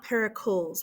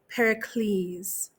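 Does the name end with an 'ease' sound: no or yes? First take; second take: no; yes. First: The ending does not sound like 'ease'. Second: The ending sounds like 'ease'. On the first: The speaker calls it wrong. "which is how we like would just pronounce it in like American English" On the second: The speaker calls it right. "it's an ease sound"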